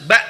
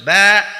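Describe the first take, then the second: First: The final sound is stopped crisply with no airflow. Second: The final sound is drawn out with flowing air. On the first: The speaker calls it right. "harus ba jelas ya ketika hamzah berharokat sukun" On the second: The speaker calls it wrong. "nggak boleh ba. Kalau ba itu berarti dia uh, rokhawah, dialirkan"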